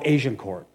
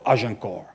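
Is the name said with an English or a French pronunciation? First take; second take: English; French. First: The name is said with English pronunciation. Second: The name is said with French pronunciation.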